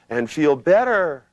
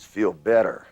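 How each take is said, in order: First: "And feel better" said higher, louder and slower, not as a command; wrong weak delivery. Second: "feel better" said as a firm, direct command. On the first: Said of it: "Don't go". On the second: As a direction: make "feel better" sound like an order. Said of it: "sound like it's a command". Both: Shown as a demonstration.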